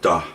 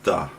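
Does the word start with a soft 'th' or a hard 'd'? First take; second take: hard d; hard d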